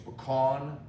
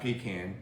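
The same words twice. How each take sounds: First: It does not sound like 'pee can'. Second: It sounds like 'pee can'. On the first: This is how Southerners say it. The speaker calls it right. "Pecan is something that we use here in the South" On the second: This is how Northerners say it. The speaker calls it wrong. "Pecan's a toilet that you Yankees use"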